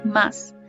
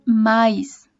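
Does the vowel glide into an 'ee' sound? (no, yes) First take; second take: no; yes. First: The vowel is a plain, single 'a' sound. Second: The vowel glides from 'a' into 'ee'. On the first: "no la pronuncian como más" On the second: "dicen mais"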